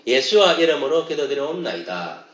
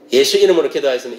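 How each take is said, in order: First: 예수와 said as "Yeshua" in the prayer formula; Hebrew name in prayer. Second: Said in the usual way. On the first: Shown as a demonstration. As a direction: give 예수와 its extra final "a" sound. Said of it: "정확하게 이야기하면". (기도문 속 "예수와"를 히브리어식 발음으로) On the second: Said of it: "이게 아니고".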